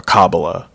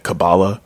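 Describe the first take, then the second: First: Kabbalah as KAH-buh-luh; Kabbalah, open first syllable, weak middle; first-syllable stress. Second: Kabbalah as kuh-BAH-luh; Kabbalah, weak first syllable, open middle; middle-syllable stress. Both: Shown as a demonstration. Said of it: "is it Kabbalah or Kabbalah?".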